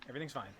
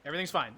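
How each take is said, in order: First: Trailing off into a soft mutter; fading mutter. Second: Said in the usual way. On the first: Real, not acted. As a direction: say it softer, resigned, fading away. Repeating it, fading out.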